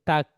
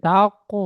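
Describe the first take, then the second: First: The syllable ends on the consonant k. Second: The syllable ends with an added vowel. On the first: The speaker calls it right. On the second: The speaker calls it wrong. "তাকো না, তাকো হলে কফ হয়ে যাচ্ছে"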